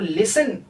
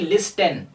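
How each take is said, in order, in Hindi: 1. इस शब्द में T की ध्वनि नहीं बोली जाती। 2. इस शब्द में T की ध्वनि बोली जाती है। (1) "लिसन इसे कहा जाएगा" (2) "ना कि लिस्टन"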